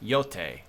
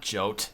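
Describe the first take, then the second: First: The name begins with a Y sound. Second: The name begins with a J sound. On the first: The speaker calls it right. "That's how you pronounce it" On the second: The speaker calls it wrong. "not Jote"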